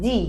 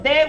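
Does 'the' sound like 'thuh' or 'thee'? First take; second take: thee; thuh. First: The vowel is long and clear, like 'thee'. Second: The vowel is short and weak, like 'thuh'. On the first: The speaker calls it right. "we pronounce it the" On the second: The speaker calls it wrong. "instead of the"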